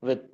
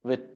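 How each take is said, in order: Both takes have the same delivery.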